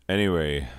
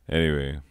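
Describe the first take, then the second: No difference in how they are said.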